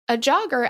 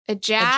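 First: It is said in a neutral accent. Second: It is said in a Massachusetts accent. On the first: The speaker calls it wrong. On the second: The speaker calls it right.

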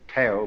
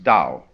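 First: The word begins with a hard t sound. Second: The word begins with a soft d sound. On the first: The speaker calls it wrong. "you would think it was pronounced Tao" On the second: The speaker calls it right. "This character in Chinese is pronounced Tao. ... We should have spelled it D-O-W"

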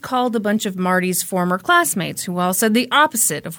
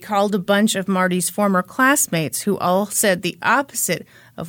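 First: The phrase is spoken quickly and runs together. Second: The phrase is spoken slowly and carefully. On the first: The speaker calls it wrong. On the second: The speaker calls it right.

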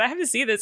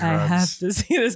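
First: It is said in a plain, neutral way. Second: It is said in a creepy, weird way. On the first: "It wasn't the fact that you said" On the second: "It was the fact you're like"

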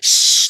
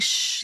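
First: The shush is harsh and aggressive. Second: The shush is soft and gentle.

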